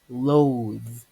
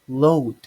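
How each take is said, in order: First: The word ends with a voiced th sound. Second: The word ends with a d sound. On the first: The speaker calls it right. "but it's actually loathe" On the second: The speaker calls it wrong. "some people mispronounce it as in load"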